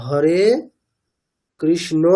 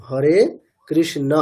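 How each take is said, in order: First: Hare কৃষ্ণ with a final o, "krishno"; wrong Bengali-style pronunciation. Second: Hare কৃষ্ণ with a final short a, "krishna"; correct Sanskrit pronunciation. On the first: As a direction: end কৃষ্ণ on a rounded o. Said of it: "এরকম না". (বাংলা ঢঙে কৃষ্ণ-র শেষে ও-কার) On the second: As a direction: end কৃষ্ণ on a clear open a. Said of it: "উচ্চারণটা কেমন করতে হবে". (সংস্কৃত ঢঙে কৃষ্ণ-র শেষে স্পষ্ট অ) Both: Shown as a demonstration.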